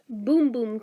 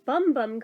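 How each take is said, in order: First: The vowel is long, as in 'boom'. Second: The vowel is short, as in 'bum'. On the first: "supposed to be pronounced Boom Boom" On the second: "apparently y'all have been saying it wrong"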